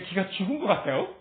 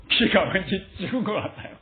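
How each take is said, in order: First: 기가 죽은 것 같아요? with a rising question tune at 같아요; asking tune. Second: 기가 왠지 죽은 것 같아요. with 기가 stressed and a falling statement tune; stating tune. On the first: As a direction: ask it, lifting the pitch on the last syllable of 같아요?. (같아요?를 올리는 질문 억양) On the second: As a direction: state it flatly, letting 같아요. fall at the end. (같아요.를 내리는 서술 억양) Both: Shown as a demonstration.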